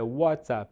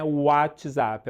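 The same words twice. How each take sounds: First: "WhatsApp" as "uátsap", with a clean ts; "WhatsApp" with no extra vowel after the t; correct WhatsApp. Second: "WhatsApp" as "átchizap", with a "tchi" in the middle; Brazilian-style "WhatsApp" with the t turned to "tchi"; the way to avoid saying "WhatsApp", as "átchizap"; wrong WhatsApp. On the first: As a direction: say "WhatsApp" with a w glide and a plain ts. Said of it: "é WhatsApp". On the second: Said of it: "não é WhatsApp". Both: Shown as a demonstration.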